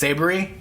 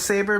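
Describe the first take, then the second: First: The word is said with three syllables. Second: The word is said with two syllables. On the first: This is how most children read the name. "to most kids, I'm pretty sure they said it's Sabery" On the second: This is how the speaker reads the name. "the way I read it is I think of it as Saber"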